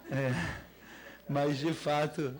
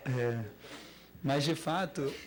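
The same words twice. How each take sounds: The two takes are said the same way.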